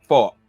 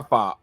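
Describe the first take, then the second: First: Said in the usual way. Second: Country accent slipping out on "fa-". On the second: Real, not acted. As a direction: let "fa-" slip into a country accent. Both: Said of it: "my country accent slipping out there".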